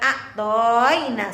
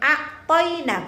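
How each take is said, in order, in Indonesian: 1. Vokal pada 'to' dibaca panjang. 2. Vokal pada 'to' dibaca pendek. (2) "toy dibaca pendek"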